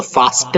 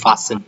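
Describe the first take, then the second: First: Fasten with the t sounded; wrong fasten. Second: Fasten with silent t, like fasen; correct fasten. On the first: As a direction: show the error, fas-ten with t. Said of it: "नहीं है". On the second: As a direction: model fasten without t. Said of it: "को बोलते हैं". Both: Shown as a demonstration.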